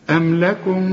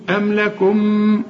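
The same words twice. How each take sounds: First: أم لكم with the second mim hidden, lips barely apart; light mim. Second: أم لكم with lips pressed shut on the mim; mock wrong mim; wrong lip closure. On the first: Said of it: "لو جبت ورقة أعديها بين شفايفي". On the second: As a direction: demonstrate the mistake in أم لكم. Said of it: "اوعى تضم شفايفك". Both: Shown as a demonstration.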